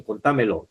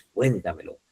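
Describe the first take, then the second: First: "Contámelo" stressed on the second syllable, TÁ; wrong stress on TA. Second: "cuéntamelo" with the first syllable CUÉN stressed. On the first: Retold or imitated. Teacher quotes what many people say, stress on TA. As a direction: put the stress of "Contámelo" on con-TÁ-melo. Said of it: "porque muchos dicen". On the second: Shown as a demonstration. Teacher corrects what many say, stress on CUÉN. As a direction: stress CUÉN in "cuéntamelo", then let it fall. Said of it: "y es cuéntamelo".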